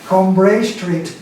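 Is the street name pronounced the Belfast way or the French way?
French. The name has a French pronunciation. "if you want to go French"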